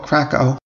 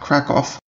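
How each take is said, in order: First: Pronounced the way many Americans say it. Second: Pronounced differently from the common American way. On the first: The speaker calls it wrong. "A lot of Americans call it Krakow" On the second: The speaker calls it right. "the correct pronunciation is in fact Krakow"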